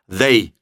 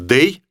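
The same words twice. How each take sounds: First: The word starts with a th sound. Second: The word starts with a d sound. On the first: "Просто вот так его нужно произносить" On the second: "Лучше скажите «they»"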